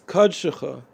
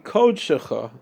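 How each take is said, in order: First: The first vowel is an 'uh' sound, Chassidic style. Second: The first vowel is said the Sephardic way. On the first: "it's a uh when it's a Kometz Kutan" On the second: "the way Svardim would say would be"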